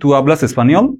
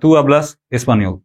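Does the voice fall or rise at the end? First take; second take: rises; falls. First: The voice rises at the end. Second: The voice falls at the end. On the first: It asks whether the listener speaks Spanish. "অর্থাৎ আপনি question mark বা একটা স্ট্রেস দিচ্ছেন" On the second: It states that the listener speaks Spanish. "তুমি স্প্যানিশ বলো।"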